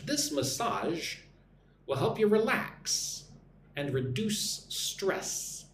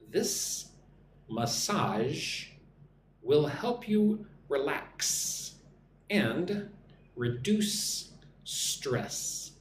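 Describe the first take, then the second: First: The sentence is spoken at a normal pace. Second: The sentence is spoken slowly with clear S sounds.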